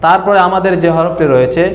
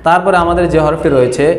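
The two takes are said the same way.

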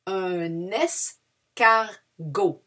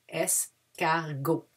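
First: "Un escargot" stretched out, silent T; slow "escargot" ending on O; very slow model word. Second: "Escargot" slowly, softly, no final T; careful "Escargot", silent T; slow quiet repeat. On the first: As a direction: draw out "escargot" syllable by syllable. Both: Shown as a demonstration. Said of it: "We don't pronounce the T at the end".

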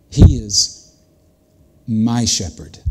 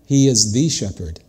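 First: "my" carried by a pause after "He is", then set apart; stress on MY. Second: Said in the usual way. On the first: Shown as a demonstration. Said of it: "He's not a shepherd". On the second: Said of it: "It doesn't say".

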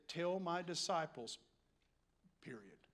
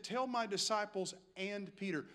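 First: Quiet "disciples", a pause, then "period" dropped very low; full stop after DISCIPLES. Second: "disciples" runs straight on into an emphasized "and Peter"; stress on AND PETER. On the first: Preacher shows what Jesus could have said, stopping after "disciples". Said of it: "He could have said". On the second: Preacher shows what Jesus really said, stressing "and Peter". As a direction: lean on "and Peter" as the key addition. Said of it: "No, he said". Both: Shown as a demonstration.

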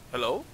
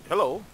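First: Said in the usual way. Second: Loud high call. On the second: Real, not acted. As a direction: shout hello to find them. Calling out to find someone.

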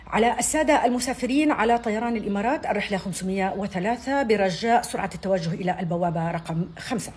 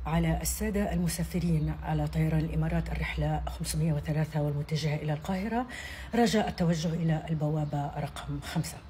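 First: Higher, louder hurried gate call; urgent airport announcement. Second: Calm, measured gate call over the speakers; airport announcement. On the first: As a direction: push them to hurry to the gate. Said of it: "لما يحمسوهم بقى شوية زيادة". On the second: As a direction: read it like a routine boarding call. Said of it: "أول حاجة هنبتدي بيها النداء اللي بيبقى جوه المطار". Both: Shown as a demonstration.

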